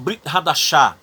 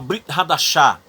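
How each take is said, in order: First: The vowel between B and R is dropped. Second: The same.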